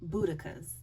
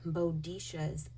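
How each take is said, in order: First: The middle consonant is a 'k' sound. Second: The middle consonant is a 'sh' sound. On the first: The speaker calls it right. "It's called Boudica" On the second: The speaker calls it wrong. "I was saying Bodisha"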